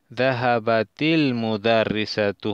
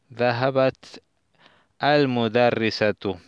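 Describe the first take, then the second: First: An added 'i' vowel links the two words. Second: The two words are said without an added vowel.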